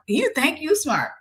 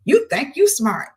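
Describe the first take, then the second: First: A sneering, sing-song jab, slowed down; mocking taunt. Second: Mocking taunt. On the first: Boyfriend sneers at her for knowing too much, mocking and slow. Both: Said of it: "he was like".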